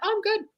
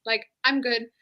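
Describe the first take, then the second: First: Much higher, overly chipper fake "good"; "Oh, I'm good." sung up high to hide it; forced cheerful. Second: Said in the usual way. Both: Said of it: "And I'm like".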